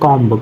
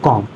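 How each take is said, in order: First: A final b sound is pronounced. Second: The final b is silent. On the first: The speaker calls it wrong. "हम लोग बोलते हैं कॉम्ब" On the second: The speaker calls it right. "शुद्ध कॉम"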